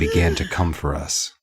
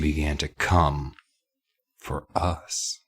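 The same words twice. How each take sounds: First: It is read in a plain, non-suggestive way. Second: It is read in a suggestive, innuendo-laden way. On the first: It simply describes a threatening approach. The speaker calls it right. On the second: It hints at a sexual double meaning. The speaker calls it wrong.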